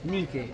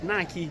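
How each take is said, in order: First: The name is said with a Greek pronunciation. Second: The name is said with an English pronunciation. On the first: "in Greek" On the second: "if you pronounce it in English"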